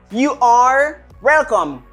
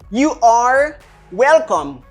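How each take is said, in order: The two takes are said the same way.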